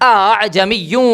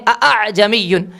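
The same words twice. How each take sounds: First: The second glottal stop is softened and eased. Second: Both glottal stops are pronounced fully and firmly. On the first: The speaker calls it right. "पहले हमज़े की तहक़ीक़ है, दूसरे हमज़े की तस्हील है" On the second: The speaker calls it wrong. "बहुत मजबूती के साथ दो हमज़ा की तहक़ीक़ पढ़ते हैं"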